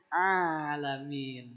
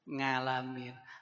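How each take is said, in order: First: The word begins with a throat vowel. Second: The word begins with an 'ng' sound. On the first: The speaker calls it right. "bukan ngalamin tapi A pakai ain" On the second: The speaker calls it wrong. "baca A itu banyak yang bacanya jadi nga"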